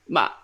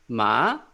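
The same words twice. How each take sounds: First: The pitch falls sharply, sounding angry. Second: The pitch rises like a question. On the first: "the angry tone, I call it" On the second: "it's like a question, second tone"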